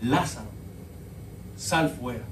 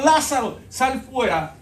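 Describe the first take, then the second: First: Low, hushed calling of Lázaro; a calm quiet summons at the tomb; quiet command. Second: Higher, louder call of Lázaro; a ringing summons to the dead man; loud command. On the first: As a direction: say it softly, almost to yourself. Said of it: "simplemente dijo estas palabras". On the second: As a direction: call him out of the tomb with power. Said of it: "Jesús le dijo". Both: Retold or imitated.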